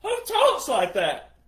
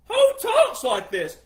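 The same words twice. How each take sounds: First: Said in the usual way. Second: Higher, louder, slow outraged question; exasperated loud cry. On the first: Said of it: "repeats with rising exasperation". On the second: Real, not acted. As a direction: shout it in disbelief.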